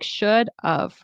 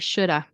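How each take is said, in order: First: The word have is reduced to a weak of. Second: The word have is reduced to a weak a. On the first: "It kind of sounds like should of" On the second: "It also can turn into I shoulda"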